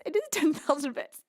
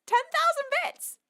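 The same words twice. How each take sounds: First: Said in the usual way. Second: High, incredulous squeal; astonished. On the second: Real, not acted. Streamer seeing a huge donation, astonished. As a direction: let the pitch leap in disbelief.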